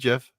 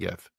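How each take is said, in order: First: The word begins with a J sound. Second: The word begins with a hard G sound. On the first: "You want me to pronounce it GIF? Put a J there" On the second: "There's a G. I'm calling it GIF"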